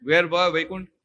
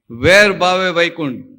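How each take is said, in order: First: Said in the usual way. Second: વેર ભાવે Vaikuntha said slowly and louder, weight on વેર; slow emphatic saying. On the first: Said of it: "કમલેશભાઈ, સમજાય ને?". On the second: Shown as a demonstration. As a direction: lean on વેર, drawing the phrase out. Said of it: "વેર ભાવે વૈકુંઠ કહેવાય કે ના કહેવાય?". (વેર પર ભાર, ધીમે અને જોરથી)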